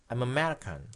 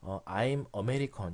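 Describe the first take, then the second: First: The phrase is said fast with the weak vowel dropped. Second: The phrase is said at a careful, unhurried pace.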